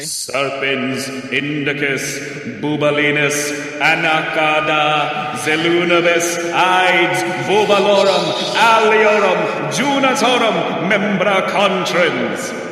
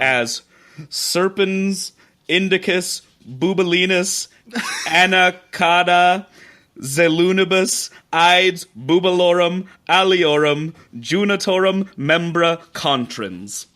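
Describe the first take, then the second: First: It is intoned darkly like casting a spell. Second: It is read out in a plain voice.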